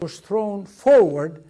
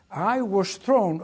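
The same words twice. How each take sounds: First: Much louder, slow, punching forward; emphatic retelling. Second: Slow, weighty I was thrown with thrown drawn out; slow start. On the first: Veteran retells being thrown from the plane, loud and emphatic. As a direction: belt out forward as the jolt hits. Restarted phrase, now with forward. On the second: Veteran begins telling how the crash threw him, slow and weighty. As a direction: lean on thrown and let it fall slowly. Restart before adding forward. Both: Retold or imitated.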